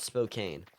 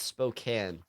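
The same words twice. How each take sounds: First: Spokane said "spo-CANE"; long A ending. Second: Spokane said "spo-CAN"; short A ending. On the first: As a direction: end Spokane like the word "cane". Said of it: "Not Spokane". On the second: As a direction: end Spokane like the word "can". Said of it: "it's Spokane". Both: Shown as a demonstration.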